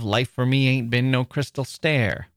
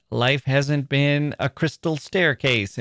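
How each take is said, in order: First: "Life for me ain't been no crystal stair" in the mother's dialect. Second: "Life hasn't been a crystal staircase" in slow, careful standard English; standard grammar. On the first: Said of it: "instead of". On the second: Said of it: "This could be". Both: Shown as a demonstration.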